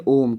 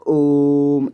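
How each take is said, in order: First: Said in the usual way. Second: ओम stretched very long, vowel held; drawn-out pluta vowel. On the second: Shown as a demonstration. Teacher demonstrating the pluta vowel in ओम to students, very slow. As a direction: hold the ओ of ओम far past its normal length. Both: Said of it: "जैसे हम ओम का उच्चारण करते हैं ना".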